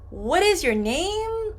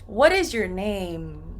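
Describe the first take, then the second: First: The voice rises at the end. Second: The voice falls at the end. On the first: The speaker calls it wrong. "I don't say" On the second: The speaker calls it right. "It goes down"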